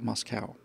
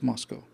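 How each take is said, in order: First: The last syllable rhymes with cow. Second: The last syllable rhymes with go. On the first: The speaker calls it wrong. "it's not Moscow" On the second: The speaker calls it right. "it's Moscow"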